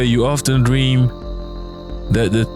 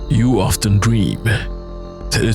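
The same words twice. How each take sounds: First: The voice sounds cheerful and light. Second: The voice sounds dark and gloomy. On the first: The speaker calls it wrong. "I sound too happy for this game" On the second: The speaker calls it right. "I might need a more morbid voice here"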